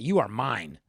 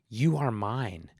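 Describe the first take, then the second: First: It is said in a meaner, possessive tone. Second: It is said in a plain, neutral tone.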